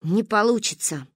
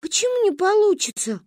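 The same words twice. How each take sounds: First: Level, matter-of-fact ruling; delivering a verdict. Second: Put-on high-pitched, hurt child's protest; offended question. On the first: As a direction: pronounce it as a final verdict. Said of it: "вынесла она вердикт". (вынося вердикт, ровно) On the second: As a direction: question it like an offended little girl. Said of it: "обиделась Манька". (обиженно, высоким голосом) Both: A narrator's reading.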